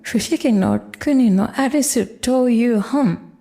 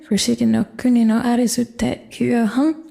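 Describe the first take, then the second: First: The full form 'to iu' comes before 'hon'. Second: The reduced form 'te iu' comes before 'hon'.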